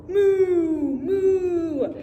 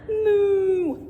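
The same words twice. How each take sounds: First: Loud drawn moo like a cow. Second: Cow moo. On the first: Reading farm book, cow speaks. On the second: Children repeat animal noises. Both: Acted.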